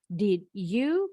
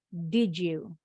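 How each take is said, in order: First: The d and y sounds are kept separate. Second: The d and y merge into a j sound. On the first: The speaker calls it wrong. "it doesn't sound natural" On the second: The speaker calls it right. "ini bacanya jadi J"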